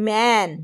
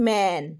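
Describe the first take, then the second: The two takes are said the same way.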